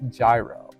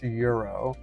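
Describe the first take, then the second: First: The word begins with a J sound. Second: The word begins with a Y sound. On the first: The speaker calls it wrong. "his family swears up and down it's pronounced gyro" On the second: The speaker calls it right. "I'm pretty sure it's pronounced euro"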